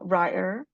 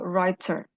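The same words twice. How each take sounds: First: The middle t sound is dropped. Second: The middle t sound is clearly heard.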